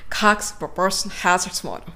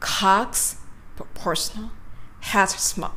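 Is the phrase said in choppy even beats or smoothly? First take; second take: smoothly; choppy beats. First: It flows smoothly at a natural speaking rhythm. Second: It is chopped into four even, punched beats. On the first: The speaker calls it right. "普通の方がいいですね" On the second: The speaker calls it wrong. "パンパンパンパンって感じですね"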